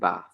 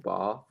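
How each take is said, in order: First: It is said in a West Midlands accent. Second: It is said in an Oxford accent. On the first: "I say castle and bath, ... hint that I'm from the West Midlands" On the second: "I don't say castle or bath"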